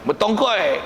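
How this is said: The word ends in an 'oi' sound. "Bunyi Kedahnya"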